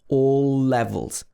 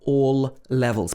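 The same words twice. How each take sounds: First: The two l sounds merge into one. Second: Each word keeps its own l sound. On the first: The speaker calls it right. "So it becomes all levels" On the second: The speaker calls it wrong. "not all levels"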